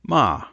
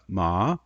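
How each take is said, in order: First: The pitch starts high and falls. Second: The pitch starts low and rises higher. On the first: The word means scold. "it's a high falling tone" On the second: The word means to be numb. "we'll call that a rising tone"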